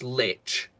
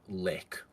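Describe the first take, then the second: First: The word ends with a ch sound. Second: The word ends with a k sound. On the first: This is the English form of the word. "it is pronounced lich because it's an English" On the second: This is the form based on German. "if you used German as the base language, you you would pronounce it lick"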